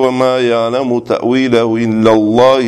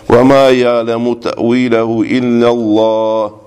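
First: The recitation runs on into the next phrase. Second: The recitation stops after the final word. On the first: God and the firmly grounded in knowledge know its interpretation. The speaker calls it wrong. "не читали, что" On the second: Only God knows its interpretation. The speaker calls it right. "Здесь останавливаюсь"

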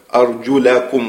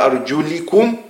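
First: The vowel after the L is 'a'. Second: The vowel after the L is 'i'. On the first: The feet are to be washed. "с фатхи лям" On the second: The feet are to be washed lightly. "а что касается чтения кеср"

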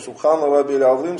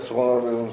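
First: It is said slowly and clearly. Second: It is said hastily and indistinctly. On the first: The prayer is performed with proper calm. The speaker calls it right. "это минимум" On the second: The prayer is done in haste without calm. The speaker calls it wrong. "Они так, ... даже непонятно, что он сказал"

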